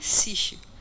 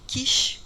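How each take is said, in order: First: The word begins with an s sound. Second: The word begins with a k sound. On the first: It refers to the silver-based technique. "referindo-se ao S de silver, das técnicas com prata" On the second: It refers to the chromogenic technique. "com as técnicas cromogênicas"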